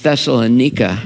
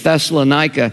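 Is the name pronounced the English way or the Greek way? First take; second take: Greek; English. First: The name is pronounced the Greek way. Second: The name is pronounced the usual English way.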